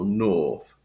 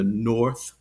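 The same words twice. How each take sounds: First: It has an extended vowel without R, British. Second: It has a rounded R sound, General American.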